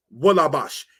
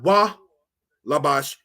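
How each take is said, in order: First: "wa labash" run together without a break; no gap between "wa" and "labash"; joined as one word. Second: "wa", a clear break, then "labash"; split in two words. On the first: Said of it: "It's one word". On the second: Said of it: "is not wa labash". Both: Shown as a demonstration.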